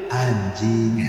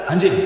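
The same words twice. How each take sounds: First: "anjing" stretched long on a low, level pitch; drawn-out joking intonation. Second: "Anjing" said short and abrupt; short rough intonation. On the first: Comparing two intonations of one rude word, jokingly drawn out. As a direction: draw "anjing" out low and slow. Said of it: "orang mendengar kan beda tuh cara". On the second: Comparing two intonations of one rude word, abruptly. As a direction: spit "Anjing" out in one quick go. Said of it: "Walaupun sebenarnya dua-duanya kasar juga". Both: Shown as a demonstration.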